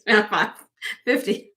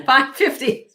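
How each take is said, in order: First: Said in the usual way. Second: Five fifty with a stressed, higher Five, said louder; corrected price. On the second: Shown as a demonstration. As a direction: set the record straight on Five fifty.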